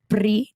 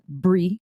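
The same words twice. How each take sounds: First: The name begins with a P sound. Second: The name begins with a B sound. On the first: The speaker calls it right. "It's with a P R I, short for princess" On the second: The speaker calls it wrong. "You said it wrong"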